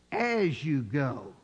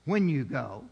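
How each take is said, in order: First: "As you go" slow and low, weighted; stress on as you go. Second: "when you go" with rising tune, contrasting; wrong reading. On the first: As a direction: let "As you go" sink in slowly. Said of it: "here's what the scripture truly says". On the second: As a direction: mark "when" as the wrong word. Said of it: "It's not". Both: Shown as a demonstration.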